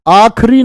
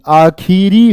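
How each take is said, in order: First: आखिरी squeezed to aakh-ree, louder and higher; wrong short form. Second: आखिरी drawn out as aa-khee-ree; slow down and sound the middle vowel of आखिरी; correct full form. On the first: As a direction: drop the middle i of आखिरी, say it loud. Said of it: "आखिरी नहीं". (आखिरी को आख्री जैसा, ज़ोर से बोलें) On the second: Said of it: "आखिरी होगा". (आखिरी में खि खींचकर, धीरे बोलें) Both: Shown as a demonstration.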